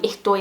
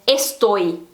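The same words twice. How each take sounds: First: The S is breathed out like an H. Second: The S is pronounced as a clear S.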